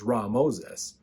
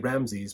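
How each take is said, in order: First: The name is said as Ra Moses. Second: The name is said as Ramses. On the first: It means son of Ra. The speaker calls it right. "the more proper way to say it is Ra Moses" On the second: This is the usual way people say it. The speaker calls it wrong. "we usually say Ramses"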